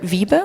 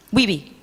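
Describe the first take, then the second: First: Wiebe said the German way, as "VEE-buh" with a V; first attempt: Wiebe with a German V and a final "buh"; German pronunciation. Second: Wiebe said the English way, as "WEE-bee" with a W; corrected: Wiebe with an English W and a final "bee"; corrected pronunciation. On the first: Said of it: "that German accent thing". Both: Real, not acted.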